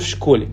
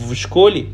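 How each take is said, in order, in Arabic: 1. حرف الجر يُنطق بصوت f المهموس. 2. حرف الجر يُنطق بصوت v المجهور. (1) "فبقول في شكولي" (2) "بدل ما اقول في شكولي تقيل"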